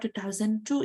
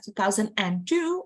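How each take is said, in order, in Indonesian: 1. Tidak ada bunyi tambahan setelah thousand. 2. Ada bunyi 'and' tambahan setelah thousand. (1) "nggak usah pakai N" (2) "pakai N"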